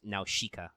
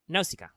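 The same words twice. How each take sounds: First: The middle consonant is an sh sound. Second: The middle consonant is a plain s sound. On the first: This is the borrowed, adapted pronunciation. "with the Japanese would almost assuredly be pronounced Nausicaa because, you know, S's and sh sounds" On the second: This is the original pronunciation. "it is pronounced that way in Greek"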